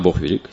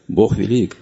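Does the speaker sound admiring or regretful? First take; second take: regretful; admiring. First: It is said in a regretful, resigned tone. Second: It is said in an admiring, delighted tone. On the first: The speaker feels small and resents it. The speaker calls it wrong. "Если мы скажем эту истину из сожаления" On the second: The speaker humbly marvels at this truth. The speaker calls it right. "Человек смиренный восхищается"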